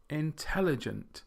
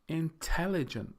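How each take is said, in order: First: The stress is on the second syllable. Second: The stress is on the second syllable.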